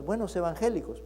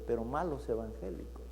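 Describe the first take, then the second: First: Said in the usual way. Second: Malos evangélicos much softer and lower, malos stressed; dropped grave contrast. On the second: Acted. Pastor contrasting good and bad believers, hushed stress on malos. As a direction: sink the voice on malos.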